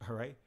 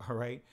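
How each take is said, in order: The two takes are said the same way.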